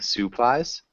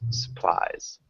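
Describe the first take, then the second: First: The first vowel is a full 'u' sound. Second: The first vowel is a short 'a' sound. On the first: The speaker calls it wrong. "So it sounds like you're saying supplies" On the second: The speaker calls it right. "It's more of like a sa instead of a su"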